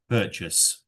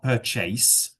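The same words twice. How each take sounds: First: The word is said naturally, without extra effort. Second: The word is said with exaggerated, over-careful articulation. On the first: The speaker calls it right. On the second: The speaker calls it wrong.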